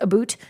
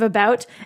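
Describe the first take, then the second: First: It is said with a Canadian accent. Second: It is said with an American accent.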